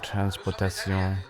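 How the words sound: It is said with a French accent.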